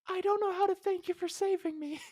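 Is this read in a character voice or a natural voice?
character voice. It is read in an acted character voice. "I can't even take myself seriously"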